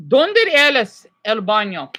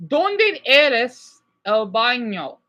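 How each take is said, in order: First: "Donde es el baño?" slowed and louder, rolled Spanish vowels; slow Spanish demo; Spanish pronunciation. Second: "Donde es el baño?" spelled out very slowly, syllable by syllable; very slow Spanish repeat; slower repeat. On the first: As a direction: model "Donde es el baño?" for the class. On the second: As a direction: drag out "Donde es el baño?" so they catch it. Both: Shown as a demonstration. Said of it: "everyone listen".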